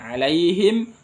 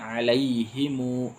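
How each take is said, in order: First: The word ends on a closed m sound. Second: The final m is followed by an added u vowel. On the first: "boleh sukun" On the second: "alaihimu silah"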